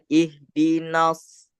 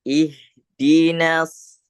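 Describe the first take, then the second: First: "ihdinas" darkened to "ihdinos"; thick "na". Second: "ihdinas" with a light, front A; thin "na". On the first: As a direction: round the last vowel of "ihdinas" toward O. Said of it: "bukan ihdinas". ("ihdinas" dengan "na" tebal, jadi "nos") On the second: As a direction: draw out "ihdinas", last vowel open and thin. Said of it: "Jadi bacanya". ("ihdinas" dengan "na" tipis) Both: Shown as a demonstration.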